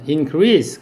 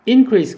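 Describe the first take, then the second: First: The stress is on the second syllable. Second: The stress is on the first syllable. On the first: It is the verb meaning to grow. "increase 그럼 동사" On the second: It is the noun meaning a rise. "increase 그럼 명사"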